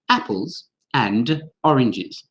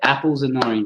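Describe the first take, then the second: First: Each word is said fully and separately. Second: The phrase is linked into two beats. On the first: The speaker calls it wrong. "even the Queen of England doesn't say apples and oranges" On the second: The speaker calls it right. "there'll be two beats there"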